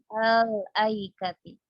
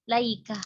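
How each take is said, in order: First: The word starts with a vowel before the l. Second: The word starts directly with an l sound. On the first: The connecting hamza is added to start the word. "menambahkan hamzah wasl ketika kita ingin memulai" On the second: The hamza is dropped and the l takes a vowel. "lamnya itu difathahkan karena katanya hamzahnya ini sudah dihapuskan"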